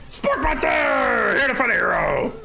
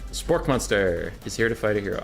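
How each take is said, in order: First: It is said in a put-on monster voice. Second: It is said in a normal voice.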